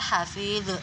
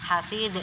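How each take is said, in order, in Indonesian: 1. Konsonan akhir dipantulkan dengan jelas. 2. Konsonan akhir dipantulkan dengan jelas.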